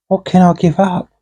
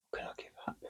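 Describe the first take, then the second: First: Said in the usual way. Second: Whispered. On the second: Acted. Pondering, repeated under breath.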